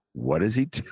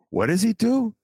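First: Said in the usual way. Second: Pitched way up and louder, in disbelief; incredulous repeat. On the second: Real, not acted. Host repeats the question to his co-host in loud disbelief. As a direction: fling the question out high and loud.

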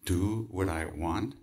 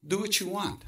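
First: Slow, stunned "Do what I want?" with rising tune; incredulous echo. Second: Higher, calm pronouncement of the guru; guru's reply. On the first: Acted. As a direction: repeat it slowly, disbelieving. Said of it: "incredulous echo of guru". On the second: Retold or imitated. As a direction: hand down the answer lightly. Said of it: "He said".

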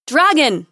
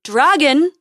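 First: Loud heroic call into darkness. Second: Higher loud call, rising; calling again. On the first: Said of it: "he called into the darkness". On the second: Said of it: "he called again". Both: Acted.

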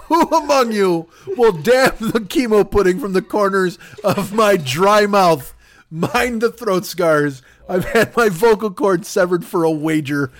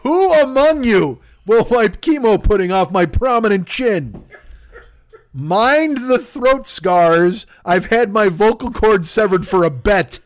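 First: Hammed-up dying plea. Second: Slow, grand mock-tragic plea; hammed-up dying plea. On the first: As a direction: drag it out like a theatrical deathbed speech. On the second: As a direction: plead like a dying man on stage, hamming it up. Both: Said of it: "put that chunk as my bio".

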